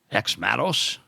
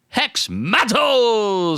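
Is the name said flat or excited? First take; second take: flat; excited. First: It is said in a flat, deflated way. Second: It is announced loudly, like a boxing announcer.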